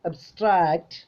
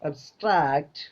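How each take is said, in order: No difference in how they are said.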